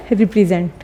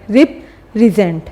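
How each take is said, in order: First: Said in the usual way. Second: represent slowly, split after the first syllable; syllable break. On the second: Shown as a demonstration. Teacher counting syllables for pupils, represent in slow separate parts. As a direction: break represent into rep, then resent. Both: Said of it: "कि कितने syllables आ रहे हैं".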